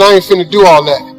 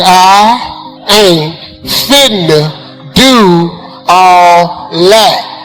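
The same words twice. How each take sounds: First: It is said at normal speed. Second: It is said slowly and deliberately.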